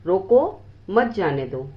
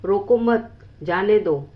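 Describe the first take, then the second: First: The pause comes after the word 'roko'. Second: The pause comes after the word 'mat'. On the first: Stop them; do not let them go. "दूसरे वाक्य में रोकने और न जाने देने के लिए कहा गया है।" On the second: Do not stop them; let them go. "पहले वाक्य में न रोकने और जाने देने के लिए कहा गया है।"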